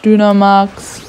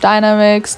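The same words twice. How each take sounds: First: The word is pronounced with German sounds. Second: The word is pronounced with English sounds.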